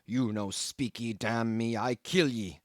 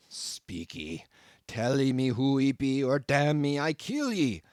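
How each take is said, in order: First: Slow, strange-voiced pidgin threat; a hint of a wild harpooneer's menace; menacing cannibal. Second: Louder, strange-voiced growling pidgin; growled threat. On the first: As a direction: threaten him slowly in broken English. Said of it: "And so saying". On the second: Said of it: "again growled the cannibal". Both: A narrator's reading.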